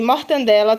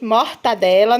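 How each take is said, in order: First: An extra n sound comes before the d. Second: No n sound comes before the d. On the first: This is the everyday habitual way of saying it. The speaker calls it wrong. "eu falo aqui as coisas erradas" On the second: This is the proper name of the food. The speaker calls it right. "que é o nome certo"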